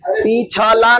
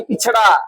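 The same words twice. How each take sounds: First: पिछला drawn out slowly as pi-chha-la; wrong word form. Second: पिछड़ा with a flapped ṛ, ending "ṛa"; correct word form. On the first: Teacher repeats the mistaken पिछला, slow syllable demo. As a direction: spell out पिछला by syllable, clear L at the end. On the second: Teacher gives students the right पिछड़ा, pronunciation demo. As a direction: say पिछड़ा as pichh-ṛa, no L. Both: Shown as a demonstration. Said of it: "पिछला नहीं".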